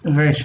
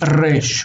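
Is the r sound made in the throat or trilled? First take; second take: throat; trilled. First: The r sound is made in the throat. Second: The r sound is trilled with the tongue. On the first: This is the current way of saying it. "now it's resh in the throat" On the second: This is the older way of saying it. "resh used to be resh with a trill"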